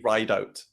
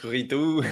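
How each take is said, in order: First: The name is said in an English style. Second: The name is said in a French style. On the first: The speaker calls it right. "actually Rideout. It's pronounced" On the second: The speaker calls it wrong. "people think it's Ridou, like French"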